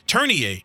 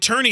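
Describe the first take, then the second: First: The name is pronounced the French way. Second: The name is pronounced a non-French way. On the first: "It is a French name, right" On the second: "But it's actually Turnier"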